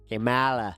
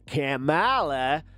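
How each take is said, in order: First: The name is said in a Boston accent. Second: The name is said in a Southern American accent. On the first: "how's a Boston accent say it?" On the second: "a southern accent"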